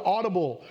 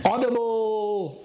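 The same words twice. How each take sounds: First: Said in the usual way. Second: "Audible" stretched slow, each syllable weighted; lingering on "Audible" to drive it home; drawn-out emphasis. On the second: Shown as a demonstration. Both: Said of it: "Audibly as in, like you can hear me".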